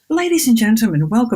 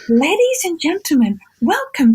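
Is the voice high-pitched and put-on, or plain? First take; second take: plain; high-pitched. First: It is said in a plain, natural voice. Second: It is said in a high-pitched, put-on voice. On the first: It is the way the speaker would prefer it said. The speaker calls it right. "why doesn't she go" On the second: It copies another person's affected announcer voice. The speaker calls it wrong. "her voice sounds weird"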